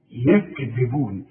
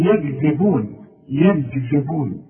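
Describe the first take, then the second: First: يكذبون with a clean ك, slowly; clear kaf. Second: يكذبون with the ك turned toward a g; slowly mock the wrong g-like k; wrong g sound. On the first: Teacher giving the correct kaf slowly. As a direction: give the kaf its full due. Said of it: "ما تحولهاش بين الكاف والجيم". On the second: Teacher mimicking a common mistake slowly. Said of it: "لا، ادي كل حرف حقه". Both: Shown as a demonstration.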